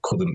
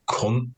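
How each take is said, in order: First: The word is said in full, standard form. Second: The word is clipped, Manchester-style, to one syllable. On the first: "instead of saying couldn't"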